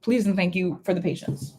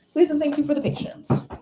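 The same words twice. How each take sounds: First: Said in the usual way. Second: Chirpy, much higher second take; lilting higher thank-you; playful higher repeat. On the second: Real, not acted. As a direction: sing it back higher in a light playful voice. Repeats the sign-off line, playfully.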